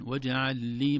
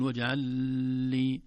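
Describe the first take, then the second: First: "واجعل لي" loud, the joined ل released promptly; brief doubled lam. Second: "واجعل لي" loud, hanging on the ل before لي; overlong lam. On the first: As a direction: say the double ل of "واجعل لي" without lingering. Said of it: "زي لام". («واجعل لي» بلام مشددة دون إطالة) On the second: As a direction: stretch the doubled ل in "واجعل لي". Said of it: "ما نقول". («واجعل لي» بإطالة اللام خطأً) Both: Shown as a demonstration.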